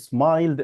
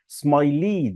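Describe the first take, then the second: First: The ending joins the word with no extra syllable. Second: The ending is said as an extra syllable. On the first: The speaker calls it right. "بضيف دي فقط من غير ما أضيف الإي التانية" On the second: The speaker calls it wrong. "لو أنا ضفت الإي دي زي ما هي فالنطق كده هيبقى مش تمام"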